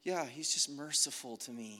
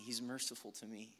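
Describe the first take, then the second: First: Casual dismissive. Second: "He's merciful to me" tossed away much softer; a careless, much quieter "He's merciful to me"; offhand murmur. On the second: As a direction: shrug off the words "He's merciful to me" under your breath. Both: Pretend. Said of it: "we cheapen it because it's like".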